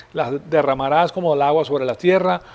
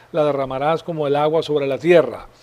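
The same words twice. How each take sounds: Both takes have the same delivery.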